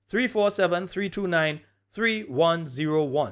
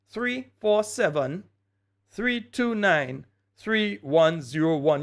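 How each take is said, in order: First: The number is said at normal speed. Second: The number is said much more slowly.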